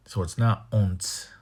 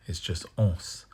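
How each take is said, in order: First: Ons said with a nasal n; the wrong ons, with the n sounded; wrong form. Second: Ons said without the n; the right ons, no n sound; right form. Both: Shown as a demonstration.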